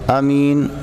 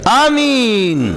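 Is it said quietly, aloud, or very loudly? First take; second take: aloud; very loudly. First: It is said aloud at normal volume. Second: It is said very loudly, like an announcement.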